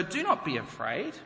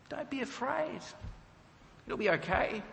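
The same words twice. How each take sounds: First: Said in the usual way. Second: High, soft and breezy reassurance; cool and calm. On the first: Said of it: "Saul's words read as scripture". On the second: Retold or imitated. Saul calmly soothing the terrified witch, soft and high. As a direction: soothe her lightly, a bit too easily. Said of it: "he's cool, calm, and collected".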